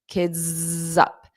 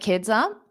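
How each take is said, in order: First: It is said slowly, loudly and with strong force. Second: It is said quickly and lightly within the sentence. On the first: "I'm going to overemphasize them. It will sound a lot louder or stronger" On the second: "when I say it fast, it will be a lot lighter"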